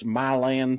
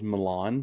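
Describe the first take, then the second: First: It is said with a plain, local pronunciation. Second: It is said with a fancy, classy pronunciation. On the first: It is how the locals say it. The speaker calls it right. "No, it's it's Milan, Tennessee" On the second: It sounds elegant and refined. The speaker calls it wrong. "have some class and pronounce it in a nice way"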